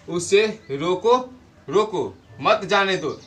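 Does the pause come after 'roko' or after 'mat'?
after roko. The pause comes after the word roko. Stop him; do not let him go.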